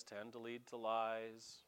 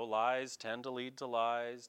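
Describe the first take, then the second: First: Quiet, slowed echo of the line; softer echo. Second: Said in the usual way. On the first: Shown as a demonstration. Preacher repeating the proverb to the congregation, softer and slow. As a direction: repeat it softer, slow, letting lies sink in.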